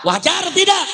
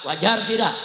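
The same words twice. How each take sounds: First: High, loud repeated challenge; real preacher's shout; rallying shout. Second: Said in the usual way. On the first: Real, not acted. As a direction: belt the question to the crowd. Repeats louder to rouse crowd.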